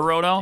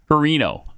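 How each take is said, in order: First: The name is said as Hirono. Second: The name is said as Harino. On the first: The speaker calls it right. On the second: The speaker calls it wrong.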